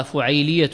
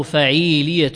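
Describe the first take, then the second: First: فعيلية as fuʕayliyatun, u then ay; diminutive-like فعيلية, fu-ʕay-li-ya; first variant. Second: فعيلية as faʕīliyatun, a then long ī; فعيلية opened to fa-ʕīī-li-ya; second variant. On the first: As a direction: say فعيلية with u on the fa and a diphthong ay. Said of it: "إما أن يقول كذا". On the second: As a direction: say فعيلية with a on the fa and a drawn-out ī. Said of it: "اختلاف". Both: Shown as a demonstration.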